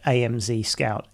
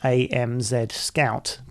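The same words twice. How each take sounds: First: The letter Z is said the American way. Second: The letter Z is said the British way. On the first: The speaker calls it right. "the founders of this product were expecting people to call it" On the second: The speaker calls it wrong. "I'm English and I would normally pronounce this"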